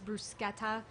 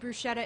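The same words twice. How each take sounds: First: It is said in the standard pronunciation. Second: It is said in the speaker's local pronunciation. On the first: This is how others say it should be said. The speaker calls it right. "I've been corrected a hundred times that it's bruschetta" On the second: This is how people from her region say it. The speaker calls it wrong. "I say bruschetta"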